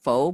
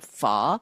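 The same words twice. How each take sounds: First: The vowel sounds like 'oh', as in 'foe'. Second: The vowel sounds like 'uh', as in 'fuh'. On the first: The speaker calls it wrong. "not pho" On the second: The speaker calls it right. "but pho"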